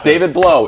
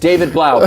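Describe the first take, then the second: First: The surname's vowel sounds like 'oh'. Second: The surname's vowel sounds like 'ow'. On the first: The speaker calls it wrong. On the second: The speaker calls it right.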